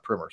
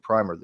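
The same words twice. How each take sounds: First: "Primer" said as "primmer"; short i in "Primer", rhyming with swimmer; short-i pronunciation. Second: "Primer" said as "pry-mer"; long i in "Primer", rhyming with timer; long-i pronunciation. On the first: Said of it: "you know, not Primer". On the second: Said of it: "I think it was actually Primer". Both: Shown as a demonstration.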